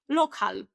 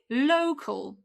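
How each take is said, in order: First: It is said with a Polish-style pronunciation. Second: It is said with an English pronunciation, starting 'low'. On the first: The speaker calls it wrong. "they say lokal" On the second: The speaker calls it right. "But this is low, repeat after me, low, call, local"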